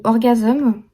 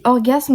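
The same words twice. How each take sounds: First: "orgasme" said English-style, ending on -azeum; prononciation anglicisée. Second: "orgasme" said the French way, ending on -asme; prononciation française. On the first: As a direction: add a small vowel before the final m of "orgasme". (« orgasme » prononcé à l'anglaise, « orgazeum ») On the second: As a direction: say "orgasme" as one French word, closed on sm. (« orgasme » prononcé à la française) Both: Shown as a demonstration. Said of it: "les deux façons de dire".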